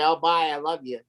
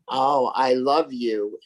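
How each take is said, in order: First: It is said quickly and offhandedly. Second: It is said slowly, letting it sit.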